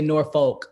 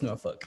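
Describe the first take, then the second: First: It is said the New Jersey way. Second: It is said the local Virginia way.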